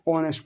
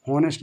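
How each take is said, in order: First: ऑनेस्ट softer, begun on the vowel; silent h. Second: हॉनेस्ट with an h at the start; mistaken h sounded. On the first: Teacher gives the correct reading, silent h in ऑनेस्ट. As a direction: say ऑनेस्ट with the h dropped. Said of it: "इसको ऑनेस्ट पढ़ा जाएगा". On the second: Teacher names the reading to avoid, h sounded in हॉनेस्ट. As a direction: say हॉनेस्ट pronouncing the opening h. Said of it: "नहीं पढ़ा जाएगा". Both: Shown as a demonstration.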